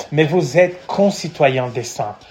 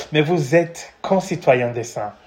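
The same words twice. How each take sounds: The two takes are said the same way.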